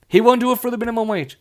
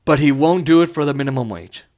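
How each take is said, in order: First: Faster and higher, punching "won't"; emphatic repeat. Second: Said in the usual way. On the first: Real, not acted. Repeating it to viewers, faster with "won't" stressed. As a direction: hit "won't" hard and rush the rest.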